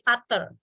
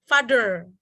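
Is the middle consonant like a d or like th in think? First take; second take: th; d. First: The middle consonant sounds like th in think. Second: The middle consonant sounds like a d. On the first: The speaker calls it wrong. "dia bukan dibaca sebagai father" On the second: The speaker calls it right. "this one will be pronounced as father"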